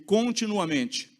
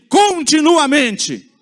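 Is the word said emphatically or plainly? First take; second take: plainly; emphatically. First: It is said plainly, without extra force. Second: It is said forcefully, in a prophet-like voice.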